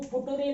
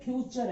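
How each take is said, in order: First: The word is said as foo-too-ray, letter by letter. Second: The word is said as fyoo-cher, with a ch sound. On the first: The speaker calls it wrong. "अरे वो फुटुरे नहीं है" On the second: The speaker calls it right. "फ्यूचर है"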